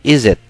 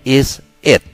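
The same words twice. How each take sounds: First: The two words are run together quickly. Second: The two words are said separately and clearly.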